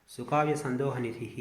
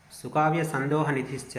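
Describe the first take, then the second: First: సుకావ్య సందోహ నిధిః repeated slowly at an ordinary level. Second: సుకావ్య సందోహ నిధిశ్చ chanted slowly, louder and higher; chanted, intone the verse line slowly and proudly; chanted verse recital. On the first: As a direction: calmly say the verse line again, slowly. Teacher repeats verse line. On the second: Teacher intoning the Sanskrit verse to students, slow, loud chant. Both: Shown as a demonstration.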